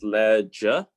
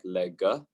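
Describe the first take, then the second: First: The g is soft, like a j. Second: The g is hard, like in go. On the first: The speaker calls it right. "pronounced like a J" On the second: The speaker calls it wrong. "not like lega"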